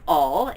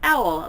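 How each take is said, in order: First: The name sounds like the word awl. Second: The name sounds like the word owl. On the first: The speaker calls it wrong. "her name is not Awl" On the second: The speaker calls it right. "It is pronounced Owl, like O W L"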